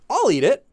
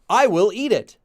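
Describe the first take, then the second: First: It is said in a warm, obliging tone. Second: It is said as a plain statement. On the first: The speaker does it as a favour for someone else. "now you have that nuance of you're doing it for someone else" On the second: The speaker simply states a future action. "The first one is simply"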